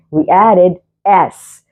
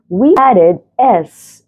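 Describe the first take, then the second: First: Said in the usual way. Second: "We" lifted high, stretched out slowly; teacher stressing "We" to the class. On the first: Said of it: "teacher repeats rule". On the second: Shown as a demonstration. Teacher points out the added S, stressing "We". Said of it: "as you see here".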